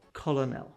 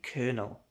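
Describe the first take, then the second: First: It is said as spelled, without an R sound. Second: It is said with an R sound, like kernel. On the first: The speaker calls it wrong. "The most common mistake" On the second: The speaker calls it right. "Forget about how it's written"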